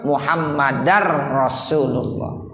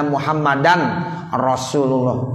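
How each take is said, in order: First: The n merges into the r sound. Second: The n is clearly pronounced before r. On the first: The speaker calls it right. "Jadi bukan muhammadan, tapi apa?" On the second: The speaker calls it wrong. "Itu kagak boleh"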